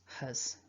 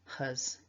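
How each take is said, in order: First: It has a weak schwa vowel. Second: It has a weak schwa vowel.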